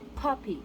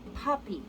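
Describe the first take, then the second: First: The p is released with a strong puff of air. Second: The same.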